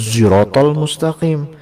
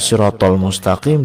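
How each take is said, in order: First: The first word begins with a z sound. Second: The first word begins with an s sound. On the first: This is another recognized reading. "dibaca zirotol mustaqim" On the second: This is the familiar reading. "bacaan sirotol mustaqim"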